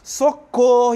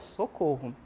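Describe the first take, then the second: First: It is said in a frightened, urgent voice. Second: It is said in a calm, even voice. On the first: The speaker calls it right. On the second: The speaker calls it wrong.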